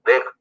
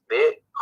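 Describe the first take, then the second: First: The final consonant is said bare, with no vowel. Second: The final consonant carries a full short a vowel. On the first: "अ की ध्वनि को नहीं बोल रहे हैं" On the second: "ख ऐसा होना चाहिए"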